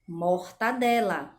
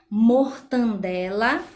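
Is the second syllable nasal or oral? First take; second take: oral; nasal. First: The second syllable has a plain oral vowel. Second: The second syllable has a nasal vowel. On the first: The speaker calls it right. "a pronúncia correta seria mortadela" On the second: The speaker calls it wrong. "a gente pronuncia mortandela"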